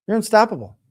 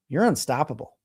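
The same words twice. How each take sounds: First: Emphatic. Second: Said in the usual way. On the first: Real, not acted. Repeated louder for emphasis.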